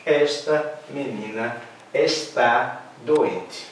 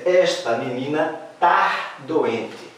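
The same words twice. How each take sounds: First: Slow, careful "Esta menina está doente" with full "está"; slow correct model. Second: Slow, deliberate "Esta menina tá doente"; slow demo. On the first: Teacher to class, slow correct sentence. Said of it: "Então". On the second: Teacher to class, slow model sentence. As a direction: spell out "tá" slowly for the class. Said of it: "E se eu disser". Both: Shown as a demonstration.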